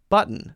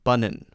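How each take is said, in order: First: A stopped sound is heard in the middle. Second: No stopped sound is heard in the middle. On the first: The speaker calls it right. "There's still a stopped sound that must, must, must be there" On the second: The speaker calls it wrong. "not mountain and bunnin"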